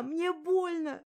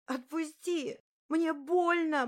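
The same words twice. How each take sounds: First: High, slow, loud tearful cry; drawn-out sobbing plea. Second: High, loud tearful cry; sobbing plea. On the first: Sobbing girl repeating her plea, high and slow. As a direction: drag it out through tears. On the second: Sobbing girl begging the bully, high and loud. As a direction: beg through the sobs. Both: Acted. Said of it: "ревела и орала в голос".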